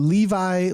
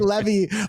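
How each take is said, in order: First: It is said like the jeans brand name. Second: It is said like the word levee. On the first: The speaker calls it right. "saying Levi like the jeans" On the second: The speaker calls it wrong. "I used to say Levy, like, and I even compared it to like a levee"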